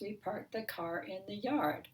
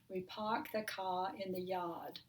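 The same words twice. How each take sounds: First: It has an American accent, with R sounds. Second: It has a British accent, without R sounds.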